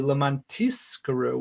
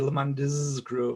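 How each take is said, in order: First: The middle consonant is a quick s sound. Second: The middle consonant is a clear z sound. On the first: It is so that we get payment. The speaker calls it wrong. "saying it quickly ... with a sa, which sounds like a sin" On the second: It is so that we remember. The speaker calls it right. "Some people really sort of pronounce the Zion in there"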